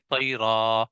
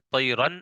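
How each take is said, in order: First: The word ends with a drawn-out long a. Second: The word ends with an audible n sound. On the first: The reading stops at this word. "वक्फ में ... अलिफ से बदल दिया जाता है ... खींच के पढ़ा जाता है" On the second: The reading continues into the next word. "यहाँ पर देखिए नून की आवाज आ रही है"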